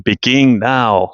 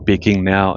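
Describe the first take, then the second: First: It is said in a sharp, commanding tone. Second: It is said in a calm, ordinary tone. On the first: It is an urgent order to act. "kind of like a military order" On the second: It is just a plain statement. "it wasn't just me saying it on this tone of voice"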